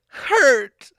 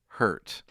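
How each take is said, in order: First: It is said in a special put-on voice. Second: It is said in an ordinary speaking voice. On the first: It is the code word to stop the show. The speaker calls it right. "But you have to say it like that" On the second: It means nothing and the show goes on. The speaker calls it wrong. "If you just call us and say hurt like that"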